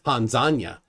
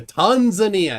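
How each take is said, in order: First: Tanzania said tahn-ZAHN-ya, both As broad; the other pronunciation. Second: Tanzania said TAHN-zuh-nee-uh, leaning on TAHN; soft first A. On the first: Host contrasting the other way, Tanzania as tahn-ZAHN-ya. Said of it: "instead of". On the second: Host showing guest's version, Tanzania as TAHN-zuh-nee-uh. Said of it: "The soft". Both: Shown as a demonstration.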